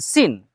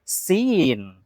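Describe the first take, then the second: First: The vowel is short. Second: The vowel is long. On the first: The speaker calls it wrong. "bukan sin" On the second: The speaker calls it right. "tapi ada ya sukun di sini, sin"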